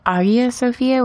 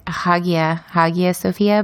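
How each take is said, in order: First: The first word starts without an H sound. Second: The first word starts with an H sound. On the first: "It's like Hagia Sophia without the H" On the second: "Some people say Hagia Sophia"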